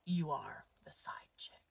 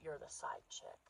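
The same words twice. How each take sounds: First: Whispered confidence, much softer. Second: Said in the usual way. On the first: Acted. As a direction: lean in and whisper it to the women. Confiding aside to the audience.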